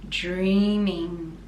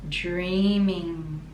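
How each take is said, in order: Both takes have the same delivery.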